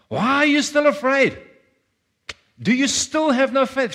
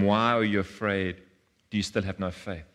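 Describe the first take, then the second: First: It is said in a frustrated, angry tone. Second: It is read in a plain, neutral tone.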